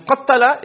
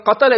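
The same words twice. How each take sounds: First: "qatala" said with a long, held double t; "qatala" with the middle consonant doubled for emphasis. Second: Said in the usual way. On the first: Shown as a demonstration. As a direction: lean on the t in "qatala", qat-tala. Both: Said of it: "the more emphatic the meaning is".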